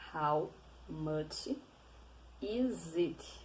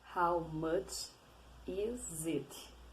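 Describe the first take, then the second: Both takes have the same delivery.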